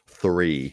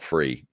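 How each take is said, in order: First: The word begins with a th sound. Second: The word begins with an f sound. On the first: The speaker calls it right. "use the effort to pronounce the th" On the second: The speaker calls it wrong. "not free"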